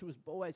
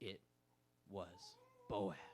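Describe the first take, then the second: First: It is said quickly with breathless, excited energy. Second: It is said slowly and dramatically, like a narrator. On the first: A character is thrilled by the news. "She gets really excited" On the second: A storyteller reveals a surprise. "would dramatically be like"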